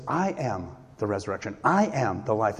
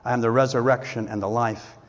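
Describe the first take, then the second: First: "I am" lifted and stretched, the rest dropping away; weighty emphasis on both "I am" phrases; stress on "I am". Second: Said in the usual way. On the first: Shown as a demonstration. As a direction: lean on each "I am", then pause briefly. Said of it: "another one of his great "I am" statements".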